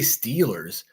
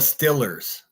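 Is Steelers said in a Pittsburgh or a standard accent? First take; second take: standard; Pittsburgh. First: It is said with a standard long ee vowel. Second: It is said with a short local i vowel. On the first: "We don't say Steelers" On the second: "We say the Stillers"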